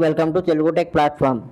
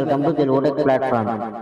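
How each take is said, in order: First: The voice sounds dry, with no echo. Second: The voice sounds with a resounding echo. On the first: "first level on చేశాను" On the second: "ఇప్పుడు నేను మాట్లాడేదంతా మీకు resound లాగా వినిపిస్తుంటుంది"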